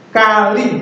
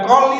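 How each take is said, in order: First: The first vowel is pronounced as a. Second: The first vowel is pronounced as o. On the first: The speaker calls it right. "tapi kali" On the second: The speaker calls it wrong. "Bukan koli"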